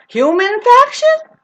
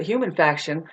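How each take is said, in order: First: High, loud, stretched-out question; drawn-out "Human faction", shooting up in pitch; incredulous echo. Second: Said in the usual way. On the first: Acted. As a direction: squeal "Human faction" slowly in mock disbelief. Repeats phrase as startled question.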